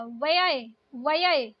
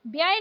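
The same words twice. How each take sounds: First: व्यय said "va-yay" with v; correct pronunciation. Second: व्यय said "byay" with b; hard b run into y in व्यय; wrong pronunciation. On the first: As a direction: say व्यय as "vayay". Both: Shown as a demonstration. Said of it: "व्यय नहीं होता".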